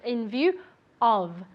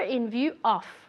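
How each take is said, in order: First: View and of both end with voiced v sounds. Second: View and of lack clear voiced v sounds. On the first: The speaker calls it right. "View with the V sound. Moving your vocal cords. And of, really as if it were a V" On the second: The speaker calls it wrong.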